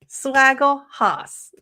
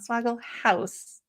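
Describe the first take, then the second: First: The last word is said the German way. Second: The last word is said like 'house'. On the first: The speaker calls it right. "It's the like German" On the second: The speaker calls it wrong. "not Swaggle House"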